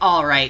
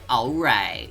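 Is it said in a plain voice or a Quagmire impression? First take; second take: plain; Quagmire. First: It is said in a plain voice. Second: It is said like Quagmire's voice.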